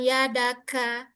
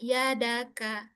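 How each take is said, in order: First: The k is released with an exaggerated breath. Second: The k is released with a light, normal breath. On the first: The speaker calls it wrong. "jangan berlebihan" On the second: The speaker calls it right. "biasa aja"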